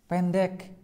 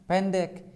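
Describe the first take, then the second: Both takes have the same delivery.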